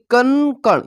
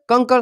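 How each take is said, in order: First: कनकण with the first syllable's n held; nasal sound shown. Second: Said in the usual way. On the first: Shown as a demonstration. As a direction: draw out the n in कनकण to show the anusvara. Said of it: "इसका उच्चारण जब हम करेंगे तो नाक से". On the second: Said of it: "यहाँ पे आप लोग देख सकते हैं".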